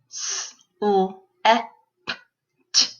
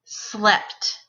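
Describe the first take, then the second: First: SLEPT split into five sounds; s... l... eh... p... t, with pauses; sounded out phonemes. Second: Said in the usual way. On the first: Shown as a demonstration. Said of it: "say the sounds in the word". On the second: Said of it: "put those sounds into a word".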